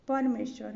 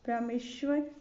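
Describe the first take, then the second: First: परमेश्वर starting with PAR; correct PAR opening. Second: परमेश्वर starting with PRA; wrong PRA opening. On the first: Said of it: "होगा". (परमेश्वर की शुरुआत "पर" से) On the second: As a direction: say परमेश्वर as "prameshwar". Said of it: "परमेश्वर होगा". (परमेश्वर को "प्रमेश्वर" बोलें) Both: Shown as a demonstration.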